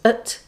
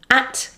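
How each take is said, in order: First: The word is said in its reduced weak form. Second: The word is said in its full strong form.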